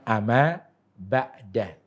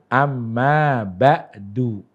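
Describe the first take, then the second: First: The last word ends with an 'a' vowel. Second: The last word ends with a 'u' vowel. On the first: The speaker calls it wrong. "Bukan amma ba'da" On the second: The speaker calls it right. "dia akan mengatakan amma ba'du"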